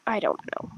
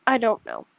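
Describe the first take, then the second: First: Breathy whisper to self; whispered under the breath. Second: Said in the usual way. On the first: Real, not acted. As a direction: drop to a whisper.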